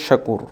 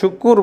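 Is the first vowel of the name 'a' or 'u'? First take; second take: a; u. First: The first vowel is an open 'a' sound. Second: The first vowel is a rounded 'u' sound. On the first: The speaker calls it right. "শাকুর বলতে হবে" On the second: The speaker calls it wrong. "আসলে শুকুর বলাটা বন্ধ করতে হবে"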